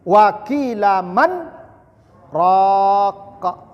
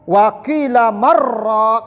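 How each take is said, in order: First: A brief silent stop comes after 'man'. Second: The words run together without any pause. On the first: The speaker calls it right. "Itu namanya saktah. Saktah itu diam sekejap" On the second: The speaker calls it wrong. "jangan ibu sambung"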